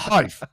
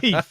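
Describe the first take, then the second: First: The vowel sounds like 'eye', ending in 'v'. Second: The vowel sounds like 'ee', ending in 'f'. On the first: The speaker calls it wrong. "It's not it's not Hive" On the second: The speaker calls it right. "So it's Heath"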